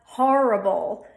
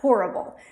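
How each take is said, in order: First: The first vowel sounds like 'ah' before the R. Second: The first vowel sounds like 'or' before the R. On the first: "put an A in front of the R"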